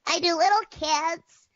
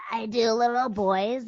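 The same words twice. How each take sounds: First: Put-on high-pitched little kid voice; cartoon little kid, pitched way up. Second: Put-on slow little boy voice; little boy character voice, taking his time. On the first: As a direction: pipe up like a small child. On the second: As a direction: talk like a young boy. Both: Shown as a demonstration.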